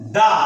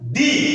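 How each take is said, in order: First: The word ends in a short uh vowel. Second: The word ends in a long ee vowel. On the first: It comes before a word starting with a consonant. "T H E এর উচ্চারণ হবে দা" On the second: It comes before a word starting with a vowel. "T H E এর উচ্চারণ হবে ডি"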